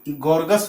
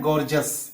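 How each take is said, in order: First: The middle consonant is a hard g sound. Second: The middle consonant is a j sound. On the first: The speaker calls it wrong. "अगर आप जी को ग ही pronounce करेंगे" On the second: The speaker calls it right. "लेकिन यह है गॉर्जस"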